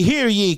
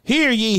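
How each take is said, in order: First: Loud ringing repeat; town crier. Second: Loud high call; town crier. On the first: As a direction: call it out again. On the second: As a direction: proclaim it to the square. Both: Retold or imitated. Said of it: "He was called the town crier".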